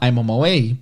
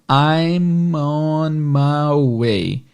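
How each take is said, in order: First: It is spoken at normal, fast conversational speed. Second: It is spoken slowly, each word drawn out. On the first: "ouvir na velocidade normal de fala" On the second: "vamos tentar diminuir um pouquinho"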